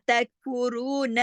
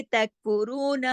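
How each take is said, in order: First: तकफुरून slow, final नून kept short; correct tajweed reading. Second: तकफुरून with the नून stretched like an added alif; demonstrating the mistake in तकफुरून; wrong drawn-out reading. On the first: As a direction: say तकफुरून without stretching the नून. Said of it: "नून को लंबा नहीं करना". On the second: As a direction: open the mouth wide on तकफुरून's end. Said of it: "अगर हम इसको ऐसे पढ़ेंगे". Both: Shown as a demonstration.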